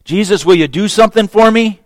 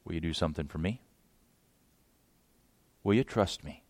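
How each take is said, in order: First: Higher, louder, pushy asking; a man demanding a favour; the petitioner pressing Jesus; demanding request. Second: Much softer, lower, gentle turn-around; Jesus answering softly; Jesus quietly turns the question back; quiet reply. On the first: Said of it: "now the tables are turned". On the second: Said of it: "Jesus says". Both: Retold or imitated.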